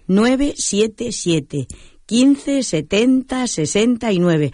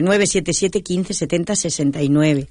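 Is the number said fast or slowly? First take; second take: slowly; fast. First: The number is said slowly. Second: The number is said quickly.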